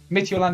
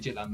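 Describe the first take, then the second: First: The name sounds like 'mit-yoo-land'. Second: The name sounds like 'midget-land'. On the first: The speaker calls it right. "is how you say it" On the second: The speaker calls it wrong. "I do like saying Midgetland there"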